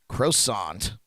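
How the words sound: It is said with an American pronunciation.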